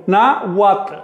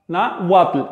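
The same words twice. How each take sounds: First: "náhuatl" said with a clear w glide; model word. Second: Said in the usual way. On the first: Shown as a demonstration. (náhuatl con w consonante clara) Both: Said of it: "Por ejemplo".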